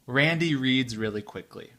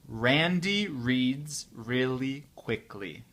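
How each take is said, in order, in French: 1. La phrase est prononcée à une vitesse très rapide. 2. La phrase est prononcée à une vitesse normale. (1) "très vite pour la quatrième fois" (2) "un peu plus vite, à la vitesse euh, normale"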